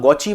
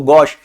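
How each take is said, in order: First: The word ends with an added 'ee' vowel. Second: The word ends in a plain 'sh' sound. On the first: The speaker calls it wrong. "ऐसे मत बोलना, गौची मत बोल देना उसे" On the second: The speaker calls it right. "वो गौश होता है"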